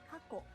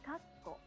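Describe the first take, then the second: First: There is no pause before the second k. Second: There is a one-beat pause before the second k. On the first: The word means past. The speaker calls it wrong. "without the pause" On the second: The word means parenthesis. The speaker calls it right. "the pause needs to take one clap"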